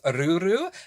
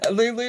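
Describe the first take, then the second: First: The name is said with an R sound. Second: The name is said with an L sound. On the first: "pronounced it with that dialect as though it's written as R U R U" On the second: "spelled L U L U"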